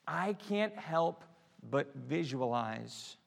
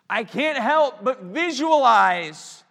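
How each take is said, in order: First: Said in the usual way. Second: Much higher and louder, drawn out; slow loud emphatic repeat. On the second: Shown as a demonstration. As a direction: preach it out big the second time.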